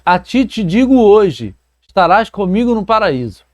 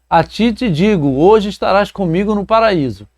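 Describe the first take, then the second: First: There is a pause after the word hoje. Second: There is a pause before the word hoje.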